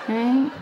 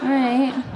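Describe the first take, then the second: Both takes have the same delivery.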